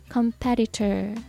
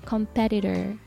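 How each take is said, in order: First: The t is pronounced as a clear t. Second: The t is softened into a d sound. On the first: "このT をしっかりT として発音するのか" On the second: "ちょっと濁らしてD になっちゃうのか"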